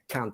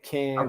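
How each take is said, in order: First: It is said short, northern English style. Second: It is said in an American accent.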